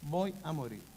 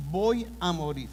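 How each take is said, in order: First: "Voy a morir" repeated much softer, fading; fearful hush. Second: "Voy" said firmly with a falling tune, a touch of fear; fearful. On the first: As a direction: let the second "Voy a morir" sink to a frightened murmur. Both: Retold or imitated. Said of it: "que Él ahora teme".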